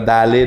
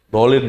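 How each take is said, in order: First: The first vowel is light and a-like. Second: The first vowel is heavy and o-like. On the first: The speaker calls it wrong. "Malah dalin" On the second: The speaker calls it right. "Dolin, please"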